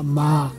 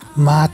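First: The syllable ends on an open vowel. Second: The syllable ends with a clear t sound. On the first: The speaker calls it right. "just makyoba, ma, makyoba, like this" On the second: The speaker calls it wrong. "you don't have to do it"

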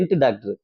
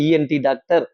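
First: ENT is said as one word, 'entu'. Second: ENT is said as separate letters E-N-T. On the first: The speaker calls it wrong. "ஐயோ அவர் என்ட்டு doctor இல்லைங்க" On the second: The speaker calls it right. "இஎன்டி doctor அப்படின்னு"

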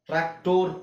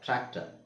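First: The last syllable has a full 'or' vowel. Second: The last syllable has a reduced 'er' vowel. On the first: The speaker calls it wrong. "ಟ್ರ್ಯಾಕ್ಟೋರ್ ಅಲ್ಲ" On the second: The speaker calls it right. "ಒಟ್ಟು O R ಉಚ್ಚಾರಣೆ ಅರ್"

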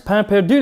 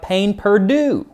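First: It is said with a French accent. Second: It is said with an American accent. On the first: "like the French" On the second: "in a horrible American accent"

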